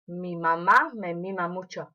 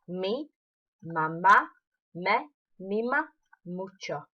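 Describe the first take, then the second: First: It is said fast. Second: It is said at normal speed.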